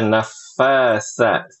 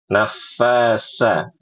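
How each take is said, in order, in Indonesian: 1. Konsonan di tengah itu bunyi th. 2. Konsonan di tengah itu bunyi s biasa. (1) "Harusnya dibaca nafasa" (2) "Sa-nya diubah jadi sin"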